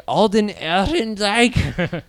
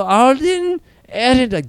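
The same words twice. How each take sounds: First: Put-on German accent, higher and slow. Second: Very high, loud hammed-up German accent. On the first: Recalling German-sounding actor names, mock German accent. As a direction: drag the name out in mock German. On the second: Repeating actor's name for comedy, exaggerated German accent. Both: Shown as a demonstration. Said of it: "super German names".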